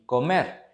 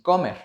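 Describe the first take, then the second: First: The stress is on the last syllable. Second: The stress is on the first syllable. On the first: The speaker calls it right. "y comer" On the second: The speaker calls it wrong. "ni comer"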